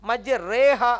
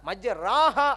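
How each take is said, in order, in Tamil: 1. 'r'க்குப் பின் வரும் உயிரெழுத்து 'e' போல ஒலிக்கிறது. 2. 'r'க்குப் பின் வரும் உயிரெழுத்து 'a' போல ஒலிக்கிறது. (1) "இந்த ரே அப்படின்ற ஓதுறது" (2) "அப்படிதான் இருக்கணும்"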